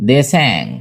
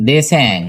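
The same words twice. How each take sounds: The two takes are said the same way.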